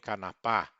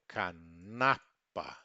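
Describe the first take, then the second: First: The stress is not on the middle syllable. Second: The stress is on the middle syllable. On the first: The speaker calls it wrong. "nem canapá" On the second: The speaker calls it right. "sempre paroxítono"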